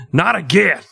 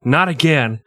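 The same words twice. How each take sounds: First: Not again said higher, rising on Not; higher mock wail. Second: Said in the usual way. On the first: Cohost mocking the victim with a higher Not again. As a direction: pitch it up and whine Not again.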